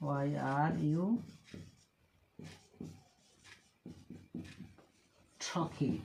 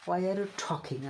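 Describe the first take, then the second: First: Slow, words pulled apart; slow in chunks. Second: Said in the usual way. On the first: Shown as a demonstration. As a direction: dictate it in two pieces.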